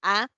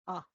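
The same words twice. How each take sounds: First: "A" as a full, open ah; wide-open mouth on "A"; digraph A. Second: "A" as a weak, short uh; "A" with the mouth barely open; schwa A. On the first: Teacher repeating the contrast for students, open "A". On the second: Teacher repeating the contrast for students, schwa "A". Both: Shown as a demonstration. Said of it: "Con diagraph y con schwa".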